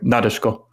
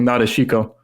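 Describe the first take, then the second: First: The syllables run together in a relaxed way. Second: Every syllable is articulated very carefully. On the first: The speaker calls it right. "So it's like" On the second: The speaker calls it wrong. "it's enunciating way too hard"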